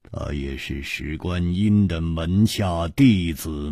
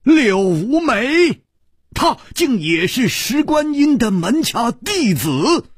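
First: Said in the usual way. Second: Much higher, louder stunned echo; shocked disbelief. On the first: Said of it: "一字字的说". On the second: Acted. Liu Wumei repeats the revelation in stunned, high disbelief. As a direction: gasp the words back in disbelief.

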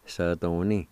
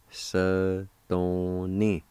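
First: "Sa-don-ni" blended as one word; joined-up pronunciation. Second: "Sa ... don ... ni", each syllable held apart. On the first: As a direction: say "Sa, don, ni" without gaps. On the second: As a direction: sound out "Sa, don, ni" slowly. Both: Shown as a demonstration. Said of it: "is pronounced like this".

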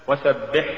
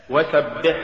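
First: وسبح with final ح softened to ه; faulty reading of وسبح, ه replacing ح; mispronounced ح. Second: Said in the usual way. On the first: Shown as a demonstration. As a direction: say وسبح ending in a plain h. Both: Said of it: "تقرأ لحنا".

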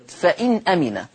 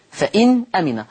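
No difference in how they are said.

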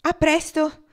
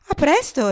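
First: High, louder parting call; calling goodbye. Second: High, louder reply; calling goodbye back. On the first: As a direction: call it out across the bar. Farewell called out together. (saluto chiamato, più alto e forte) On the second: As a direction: toss the goodbye back brightly. Goodbye answered in return. (saluto ricambiato ad alta voce) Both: A narrator's reading.

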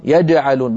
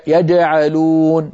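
First: يجعلون with a clean stopped jeem, no d; يجعلون said the classical way; correct jeem. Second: يجعلون with a d mixed into the jeem; slow يجعلون as dj; wrong d-jeem. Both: Shown as a demonstration. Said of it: "بدل يجعلون".

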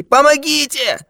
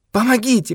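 First: Even higher, slower drawn-out cry; the second cry rises to a wail of terror; terrified cry for help. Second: Much higher panicked call; terrified cry for help. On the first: Old man wails for help in mortal fear, terrified. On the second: Old man cries for help, terrified. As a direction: scream for help in mortal fear. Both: Acted. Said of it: "закричал старик в смертельном ужасе".

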